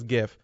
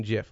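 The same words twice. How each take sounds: First: "gif" with a hard G, as in give. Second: "gif" said like "jif", with a j sound; soft G. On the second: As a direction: say "gif" as in Jif peanut butter. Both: Shown as a demonstration. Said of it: "like the peanut butter".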